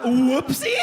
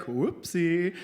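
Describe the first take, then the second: First: High, loud disbelieving question; incredulous echo. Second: Light, offhand little oops; casual oops. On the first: Splattered husband echoing the doctor, incredulous. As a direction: throw the word back, appalled, rising sharply. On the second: Doctor shrugging off his spray mistake, casual. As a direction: toss it off as a tiny mishap. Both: Retold or imitated.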